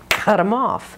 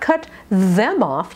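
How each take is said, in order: First: The th sound in 'them' is dropped. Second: The th sound in 'them' is fully pronounced. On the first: "You can drop the T H"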